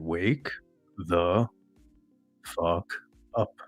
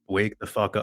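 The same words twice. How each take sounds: First: It is said slowly and deliberately. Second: It is said at normal, quick speed.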